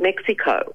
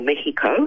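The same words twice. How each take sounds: First: It is pronounced the usual English way. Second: It is pronounced the Spanish way. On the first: The speaker calls it wrong. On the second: The speaker calls it right.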